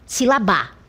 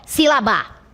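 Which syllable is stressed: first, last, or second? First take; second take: last; last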